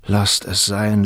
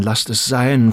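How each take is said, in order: First: Said in the usual way. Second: Louder repeat, a mild plea; a young man pleading with the woman he loves, a touch louder. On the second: Acted. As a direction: beg her to let it be. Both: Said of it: "flehte Turiddu".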